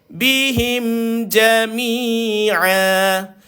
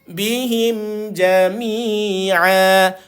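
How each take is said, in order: No difference in how they are said.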